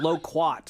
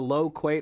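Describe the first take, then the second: First: The last syllable rhymes with 'kumquat'. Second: The last syllable rhymes with 'late'. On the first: "like kumquat" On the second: "I called it a low quate"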